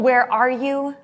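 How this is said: It is said in an angry way.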